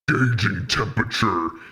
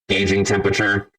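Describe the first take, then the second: First: It is said in a monster voice. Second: It is said in a robot voice.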